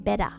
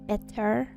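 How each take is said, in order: First: It ends in an open vowel without r. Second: It ends with a clear r sound. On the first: This is how Australians say it. "They're better. B E D D A" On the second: This is how Australians do not say it. "We don't think say things are better"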